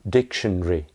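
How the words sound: It is said with three syllables, British style. "is what most people will say in British English"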